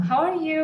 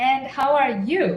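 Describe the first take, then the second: First: Said in the usual way. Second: "you" lifted high to turn the question back; stress on YOU. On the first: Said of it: "we need to change our tone". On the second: Shown as a demonstration. Asking the same question back, stress on "you". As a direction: put the weight on "you", rising. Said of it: "change our tone to reflect the same question back".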